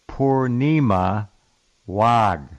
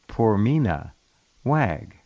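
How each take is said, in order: First: The name is said in its standard form. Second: The name is said in an altered form. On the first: The speaker calls it right. "The name is Purnima Wag" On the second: The speaker calls it wrong. "which I'm going to mispronounce"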